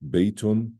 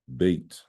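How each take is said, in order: First: The word ends with an added 'un' syllable. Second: The word ends without the 'un' syllable. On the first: This is the full grammatical form. "why did I say Baytun" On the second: This is how it is said at the end of speech. "the second time I didn't say it"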